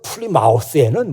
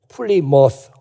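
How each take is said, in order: First: The last syllable sounds like full 'mouth'. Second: The last syllable is a reduced 'muss'. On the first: The speaker calls it wrong. "플리마우스라고 발음을 하죠" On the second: The speaker calls it right. "플리머스라고 발음을 해야 되는데"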